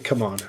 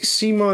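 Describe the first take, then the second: First: The name sounds like 'come on'. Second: The name sounds like 'Simon'. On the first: "I think it should be Come On" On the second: "people are pronouncing it Simon"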